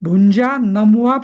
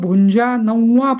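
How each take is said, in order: First: The nasal is said as a clear m. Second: The nasal blends into the following v sound. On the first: "त्याचा उच्चार मच करायचा" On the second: "समोर काय अक्षर आहे त्यानुसार बदलतो"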